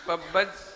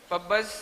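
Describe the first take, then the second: No difference in how they are said.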